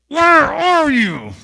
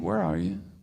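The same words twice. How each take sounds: First: It sounds stern and demanding. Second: It sounds soft and caring. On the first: The caller is displeased with the one who hid. "what the tone in God, God's voice was" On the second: The caller misses the one who hid. "Or did God say, hey"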